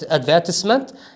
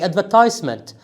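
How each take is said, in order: First: It is said with a British pronunciation. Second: It is said with an American pronunciation. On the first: "in British English, we, we say" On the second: "In American English, we say"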